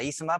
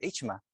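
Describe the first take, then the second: First: The middle consonant is an s sound. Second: The middle consonant is a ch sound. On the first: This is how the film says the name. The speaker calls it wrong. "lo pronuncian con Z" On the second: This is the original name of the culture. The speaker calls it right. "pero es Ichma, en realidad"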